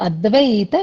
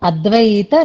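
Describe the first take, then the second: The two takes are said the same way.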